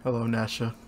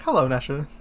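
First: Soft greeting. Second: Low, soft mocking greeting; mock quiet greeting. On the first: Acted. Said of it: "you're like, "Hello, Nasha". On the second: Imitating a friend greeting the monster softly. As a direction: echo the friend's quiet hello. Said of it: "you're like".

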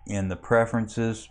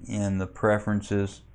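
No difference in how they are said.

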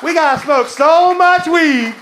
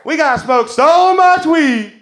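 First: Slow, drawn-out shout to the crowd, higher and louder; rally the room with a stretched-out holler. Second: Slow, drawn-out shout to the crowd, higher and louder; rallying shout again. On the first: Comic rallies the club crowd to smoke weed, slow rousing shout. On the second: Comic repeats the rally cry to the crowd, slow rousing shout. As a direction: stretch every word like a chant leader. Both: Acted.

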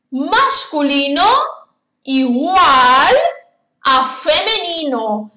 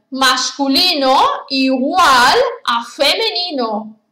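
First: "masculino", "igual", "a femenino" set apart by pauses; split into phrases. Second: Said in the usual way. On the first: Shown as a demonstration. Teacher spells out the rule piece by piece for pupils. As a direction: break the rule into three spaced chunks.

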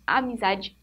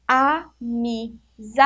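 First: Said in the usual way. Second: "Amizade" very slow, a, mi, za, di; syllable by syllable. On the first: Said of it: "quantas sílabas tem amizade?". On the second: Shown as a demonstration. Teacher counting syllables for pupils, "Amizade" in four slow beats. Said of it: "Então, tem quatro sílabas".

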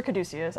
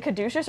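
First: Caduceus said ka-DOO-see-us. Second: Caduceus said ka-DOO-shus. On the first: Asking which pronunciation is correct, Caduceus as ka-DOO-see-us. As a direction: clear see-us ending on Caduceus. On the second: Asking which pronunciation is correct, Caduceus as ka-DOO-shus. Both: Shown as a demonstration. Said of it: "Is it Caduceus or Caduceus?".

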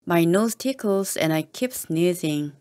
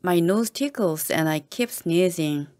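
The two takes are said the same way.

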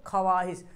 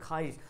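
First: ख्वाहिश as "kha-waa-hish", w sounded; spelling pronunciation. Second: ख्वाहिश as "khaa-hish", w silent; usual spoken form. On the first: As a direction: give the silent w its own syllable in ख्वाहिश. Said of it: "क्या लिखा हुआ?". (ख्वाहिश में वाव बोलकर) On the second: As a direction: drop the w from ख्वाहिश, lower and softer. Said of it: "क्या बोलते हैं?". (ख्वाहिश को "खाहिश" बोलें) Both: Shown as a demonstration.

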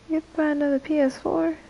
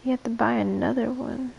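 First: Higher, quicker disbelieving question; incredulous. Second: Said in the usual way. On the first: Real, not acted. Streamer reacting to a viewer's comment, incredulous. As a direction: echo it back in disbelief, pitched up.

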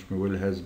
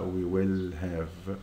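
First: Said in the usual way. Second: We will have said very slowly, have drawn out at the end; slow corrected form. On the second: Shown as a demonstration. Teacher correcting the class, slow and deliberate. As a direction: spell out the right answer word by word, very slowly. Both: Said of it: "يبقى مش we will has".

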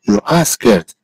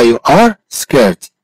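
First: Said in the usual way. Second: Slow, word by word, with a gap before "scared"; slow model. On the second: Shown as a demonstration. Teacher models "you are scared" for a student, slowly. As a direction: stretch "are", then say "scared" separately.

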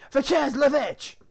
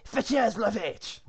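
First: Very high, very loud, drawn-out mock French command; insistent French shout. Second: Loud, slow mock French order; French command. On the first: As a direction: shout the French order at slow men. Guard repeats the order, insistent. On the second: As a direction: order your men in hammed-up French. Guard orders the cow fetched.

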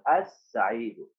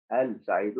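First: السعيد with a doubled S and no L; slow, low السعيد, holding the S; silent lam demo. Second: ال سعيد split, with the L sounded before the S; low demo of ال سعيد with an audible L; wrong lam demo. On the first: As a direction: glide from A straight into a long S in السعيد. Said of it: "ما نطقت اللام يا أستاذ". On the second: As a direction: separate ال from سعيد, voicing the lam. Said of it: "ما تصلح يا أستاذ". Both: Shown as a demonstration.

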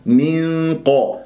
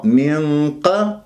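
First: Slow "من قا", light hum then full dark qa; thin ghunna, heavy qaf. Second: Slow "من قا", dark hum then wrongly light qa; thin out "قا" after a thick nasal in "من"; heavy ghunna, thin qaf. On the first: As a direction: keep the nasal of "من" thin, then thicken "قا". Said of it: "ترقق الغنة وتفخم القاف". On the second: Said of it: "تنطق لغنة مفخمة وقاف مرققة". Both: Shown as a demonstration.

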